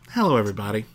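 The greeting is warm and calm. The speaker calls it right. "There you go. You nailed it"

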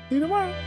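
It is said in an imitation of another's voice.

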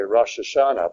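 The two words are run together as one. The speaker calls it wrong. "Most people run it all together"

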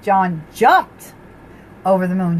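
The stress is on the word jumped.

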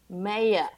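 The word is said in an Australian accent. The speaker calls it right. "my husband's trying to teach me the Australian. He's like"

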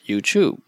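It is said with a British pronunciation. "British people pronounce it as YouTube"

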